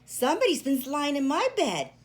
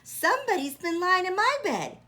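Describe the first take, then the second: First: The voice is medium in pitch and size. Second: The voice is small and high. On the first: "in her middle-sized voice" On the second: "in his little wee voice"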